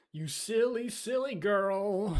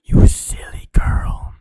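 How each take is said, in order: First: Higher, slow teasing voice; teasing silly voice. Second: Slow, breathy whispered tease; teasing whisper. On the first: Streamer teases a friend about notifications, high and slow. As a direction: tease her like a cartoon villain. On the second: Streamer whispers a tease to a friend, slow and close. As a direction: hiss it close to the mic. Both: Pretend.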